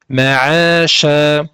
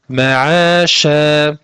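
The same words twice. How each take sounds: Both takes have the same delivery.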